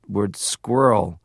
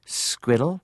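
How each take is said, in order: First: Said in the usual way. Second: "squiddle" said with a d sound for the rr, rising at the end; Liverpool squirrel. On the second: Retold or imitated. Dad's Liverpool way of saying squirrel. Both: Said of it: "He would say the word".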